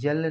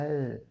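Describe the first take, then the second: First: The letter name begins with a y sound. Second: The letter name begins with a vowel sound. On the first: The speaker calls it wrong. "यल नहीं होता है" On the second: The speaker calls it right. "एल पढ़ते हैं"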